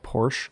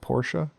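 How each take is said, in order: First: It is said the American way. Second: It is said the German way. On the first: This is how people in the US say it. "We call Porsche cars" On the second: This is how people in Germany say it. "but they call Porsche"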